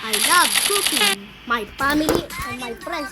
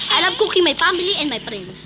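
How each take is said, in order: First: There is a pause after cooking. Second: There is no pause after cooking.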